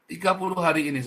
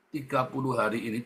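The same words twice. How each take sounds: First: Tiga puluh hari ini pushed louder and higher; stress on Tiga. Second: Said in the usual way. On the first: Shown as a demonstration. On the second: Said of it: "jangan ada keluaran".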